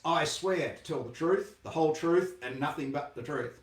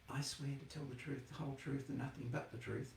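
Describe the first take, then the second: First: It is said in a big loud voice. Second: It is said quietly and timidly.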